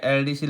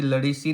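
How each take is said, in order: First: एलडीसी spelt out, starting "el"; letter by letter. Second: लड़ीसी run together, starting "la"; misread as word. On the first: Teacher reads the abbreviation correctly, एलडीसी as el-dee-see. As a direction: say एलडीसी as three letter names. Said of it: "एल अलग पढ़ते हैं". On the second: Teacher shows students the wrong reading, लड़ीसी as a single word. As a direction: say लड़ीसी as one word, "la-ree-see". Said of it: "लड़ीसी नहीं पढ़ेंगे इसको". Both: Shown as a demonstration.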